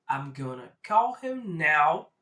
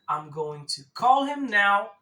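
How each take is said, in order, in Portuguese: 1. 'Going to' é reduzido para 'gonna'. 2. 'Going to' é dito como duas palavras completas.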